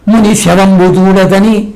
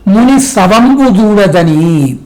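First: ముని శవంబు with శ as sha, mock mistaken singers; the wrong way singers say it. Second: Slow, careful ముని శవంబు with the proper s sound; correct pronunciation. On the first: Teacher mocks singers who garble the lyric, light imitation. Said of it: "కొంతమంది పాడుతుంటారు". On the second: Shown as a demonstration. Teacher corrects the lyric for students, slow and careful. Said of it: "అది ముని శవము కాదురా".

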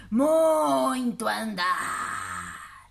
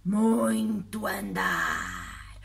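First: Slow, droning monster voice; friendly monster. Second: Deep, very slow monster drawl; friendly monster. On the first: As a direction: sigh it out like a weary giant. Monster repeats. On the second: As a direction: drag it out like a tired giant. Monster answers slowly. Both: Acted.

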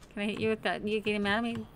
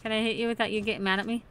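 Both takes have the same delivery.

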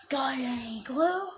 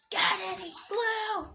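First: Slow, whiny begging; whiny beggar. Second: Slow, high, loud yell; shouted begging. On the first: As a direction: plead like a street beggar. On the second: Repeats louder, shouted. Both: Pretend.

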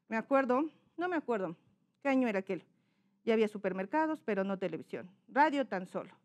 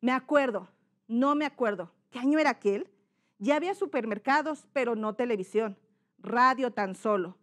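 First: Mumbled, barely opening the mouth; dicción incorrecta. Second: Clearly articulated reading aloud; correct diction. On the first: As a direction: read it softly through a nearly closed mouth. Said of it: "no se abre bien la boca". (farfullando sin abrir bien la boca) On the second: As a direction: open the mouth and enunciate each word. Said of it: "¿Cómo sería lo correcto?". (dicción clara y correcta) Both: Shown as a demonstration.

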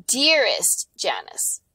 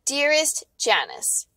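First: "Dearest" slow and drawn out; stress on Dearest. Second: "Dearest" slow and drawn out, a bit higher; stress on Dearest. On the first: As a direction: lean into "Dearest", savoring it. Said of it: "No, no, no". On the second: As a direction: hit "Dearest" with slow mock romance. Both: Shown as a demonstration.

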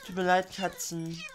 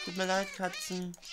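First: A loud, hammed-up sorry to the cats; mock apology. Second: Said in the usual way. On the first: Apologizing to the cats he is killing, hammed-up and loud. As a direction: exaggerate the fake remorse.

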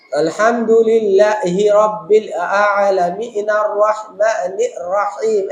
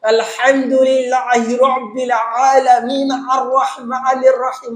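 First: Slow recitation with a glottal catch before each word of আলহামদুলিল্লাহি রাব্বিল; slow Quran reading, glottal stop clipped onto every word; hamza on every word. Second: Slow recitation of আলহামদুলিল্লাহি রাব্বিল with a throaty ain sound pushed into each letter; slow, raised, strained throaty recitation with ain everywhere; ain on every letter. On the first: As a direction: chop আলামিন আর রহমানির রহিম with a hamza-like stop at every word. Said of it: "এই যে খোসা দিয়ে দিয়ে, হামজা দিয়ে দিয়ে বলা".

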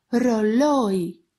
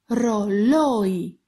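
The two takes are said the same way.

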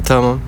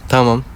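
Both takes have the same delivery.

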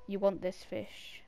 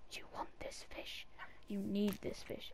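First: Said in the usual way. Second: Breathy whisper coaxing the cat. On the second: Shown as a demonstration. Whispering the fish offer to the cat. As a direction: hush it like a secret offer.

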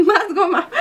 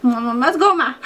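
First: Giggling, higher voice; laughing mock demand for more gummies; laughing greedy plea. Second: Said in the usual way. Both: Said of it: "ya saben".

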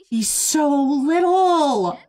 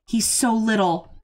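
First: Higher, slow and louder coo; drawn-out coo. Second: Said in the usual way. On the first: Real, not acted. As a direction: stretch it out, gushing over the puppy. Cooing over puppy, drawn out.

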